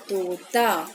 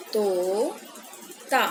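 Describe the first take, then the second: First: Said in the usual way. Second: Drawn-out reading. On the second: Shown as a demonstration. Teacher modelling तोता for children, drawn out. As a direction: stretch तोता out very slowly, syllable by syllable. Teacher reads word slowly for kids.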